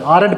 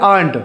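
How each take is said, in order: First: "aren't" in two beats, aa-runt, r sounded; halting aren't. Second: "aren't" in one beat, aant, r left out; fast aren't. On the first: Teacher shows careful reading to learners, halting with r. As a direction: pause inside "aren't" and pronounce the r. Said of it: "रुक करके". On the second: Teacher shows fast spoken form to learners, r dropped. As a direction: run "aren't" together, swallowing the r. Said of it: "जब fast बोलते हैं". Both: Shown as a demonstration.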